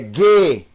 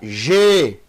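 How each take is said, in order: First: The syllable starts with a hard G sound. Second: The syllable starts with a soft J sound. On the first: The speaker calls it right. "É G. Som de G" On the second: The speaker calls it wrong. "Não leia"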